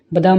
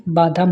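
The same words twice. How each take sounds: First: बादाम with a short first a; wrong vowel length. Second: बादाम with a long first aa; correct long vowel. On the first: Teacher shows students the mistake, short first vowel. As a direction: say बादाम as ba-daam. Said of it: "नहीं". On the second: Teacher corrects students, long first vowel. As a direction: say बादाम as baa-daam. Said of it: "होता है". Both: Shown as a demonstration.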